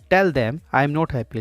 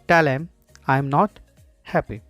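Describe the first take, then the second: First: The word 'them' is fully pronounced. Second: The word 'them' is reduced to ''em'. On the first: "full form में" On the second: "short में"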